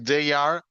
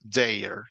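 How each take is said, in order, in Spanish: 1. Se pronuncian dos palabras completas por separado. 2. Las palabras se contraen en una sola sílaba.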